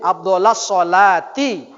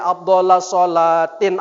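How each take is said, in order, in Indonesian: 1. Frasa itu berakhir tanpa bunyi n. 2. Frasa itu berakhir dengan bunyi n tambahan. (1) "itu yang benar" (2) "salah kau tuh mimpin tahlil"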